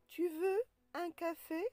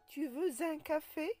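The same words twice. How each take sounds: First: No z sound links veux to un. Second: A z sound links veux to un. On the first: The speaker calls it right. "on dit" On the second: The speaker calls it wrong. "On ne dit pas"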